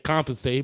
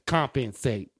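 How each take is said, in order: First: The word is said smoothly as one unit. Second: Every syllable is pronounced separately and deliberately. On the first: The speaker calls it right. "he can't just say the word" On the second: The speaker calls it wrong. "Why do you have to enunciate every fucking syllable"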